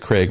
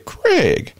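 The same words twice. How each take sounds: First: The name is said in a plain, ordinary voice. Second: The name is said in an imitated character voice. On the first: "We don't say Craig" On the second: "we say Craig. If you know the movie Friday, you get it"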